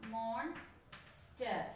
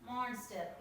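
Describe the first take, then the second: First: "Monster" broken as mon... ster with a long gap; split into syllables. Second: Said in the usual way. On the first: Shown as a demonstration. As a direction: separate the two beats of "Monster". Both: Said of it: "two syllables are there".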